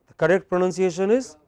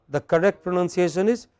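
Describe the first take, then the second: The two takes are said the same way.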